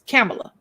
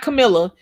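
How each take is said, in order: First: The stress is on the first syllable. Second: The stress is on the second syllable. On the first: The speaker calls it right. "the emphasis on the K A M in the beginning" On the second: The speaker calls it wrong. "It's not Camilla"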